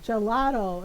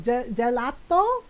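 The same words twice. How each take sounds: First: Said in the usual way. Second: "gelato" tried slowly with a flat A and hard T, rising; mom's Filipino accent. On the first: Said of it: "what is it again". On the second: Retold or imitated. Mom trying out "gelato", slow and Filipino-accented. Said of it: "in my mom's voice".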